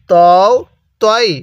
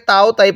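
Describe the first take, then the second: First: "তও তই" with rounded "o" vowels; correct letter pronunciation. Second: "তাও তাই" with open "aa" vowels; incorrect letter pronunciation. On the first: Teacher models the proper reading, "তও তই" with rounded vowels. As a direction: say "তও, তই" as "taw-o, taw-i", separately. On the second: Teacher warns learners off this reading, "তাও তাই" with open aa. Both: Shown as a demonstration. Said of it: "এটাকে তাও তাই পড়বো না".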